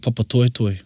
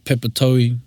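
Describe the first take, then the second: First: The name is said in full, every syllable. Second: The name is clipped, with syllables dropped. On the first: The speaker calls it right. "my Auckland ear couldn't say papatoetoe" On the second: The speaker calls it wrong. "It was always pepatoe"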